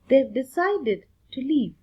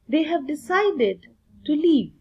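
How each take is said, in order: First: The word have is contracted to 've. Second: The word have is said in full. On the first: This is the spoken form. "we'll proceed with the spoken English" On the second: This is the written form. "what is there for written English"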